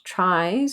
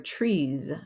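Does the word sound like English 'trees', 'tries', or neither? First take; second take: tries; trees. First: It sounds like the English word 'tries'. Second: It sounds like the English word 'trees'. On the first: "not tries or trees" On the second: "not tries or trees"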